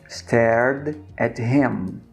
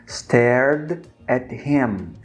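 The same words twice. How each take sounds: No difference in how they are said.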